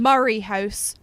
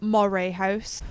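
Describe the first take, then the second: First: The name begins like 'murr', rhyming with 'hurry'. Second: The name begins like 'more', with an 'oh' vowel. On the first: The speaker calls it right. "Murray House, not Moray House" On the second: The speaker calls it wrong. "not Moray House"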